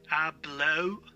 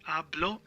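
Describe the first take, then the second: First: "hablo" drawn out with English gliding "oh-oo"; wrong final O. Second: "hablo" with mute H and pure Spanish O; correct pronunciation. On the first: Teacher showing what it is not, gliding O in "hablo". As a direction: stretch the end of "hablo" into an English diphthong. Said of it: "It's not O". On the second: Teacher correcting beginners, silent H in "hablo". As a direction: start "hablo" on the A, short final O. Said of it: "So the H is mute". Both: Shown as a demonstration.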